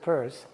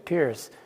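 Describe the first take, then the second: First: The name's vowel sounds like 'purr'. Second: The name's vowel sounds like 'peer'. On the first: The speaker calls it right. "it was spelled P E R S" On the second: The speaker calls it wrong. "they constantly mispronounce his last name. They say Peirce"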